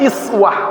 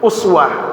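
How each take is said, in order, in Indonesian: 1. Kata ini diawali dengan vokal 'i'. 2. Kata ini diawali dengan vokal 'u'.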